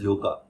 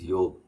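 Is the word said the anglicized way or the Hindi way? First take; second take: anglicized; Hindi. First: It is said the common anglicized way. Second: It is said the Hindi way. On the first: The speaker calls it wrong. "Often it is pronounced as" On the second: The speaker calls it right. "The correct word in Hindi is"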